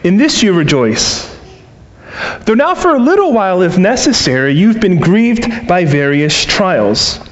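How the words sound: The pause comes before "though now."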